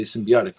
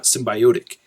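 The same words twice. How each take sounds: First: "symbiotic" as sim-bee-OT-ic; standard pronunciation. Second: "symbiotic" as sim-by-OH-tic; bio mispronunciation. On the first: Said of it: "and you say symbiotic". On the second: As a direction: force "bio" with a long o into "symbiotic". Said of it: "not symbiotic". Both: Shown as a demonstration.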